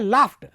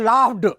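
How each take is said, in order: First: The word ends with a t sound. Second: The word ends with a d sound. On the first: The speaker calls it right. "लेकिन विश्व स्तर का उच्चारण क्या है?" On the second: The speaker calls it wrong. "तो अपन बोलेंगे Ravan लाफ्ड"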